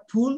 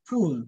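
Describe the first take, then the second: First: "ফুল" with a big, long oo; full-mouthed oo. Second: "ফুল" with a smaller, short u; short soft u. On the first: Teacher recalls the previous sound, "ফুল" with long full oo. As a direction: say "ফুল" directly, vowel fully released. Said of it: "পুরো মুখটা কিন্তু বড় করছে". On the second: Teacher contrasts the new sound, "ফুল" with short soft u. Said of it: "একটু soft হবে". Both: Shown as a demonstration.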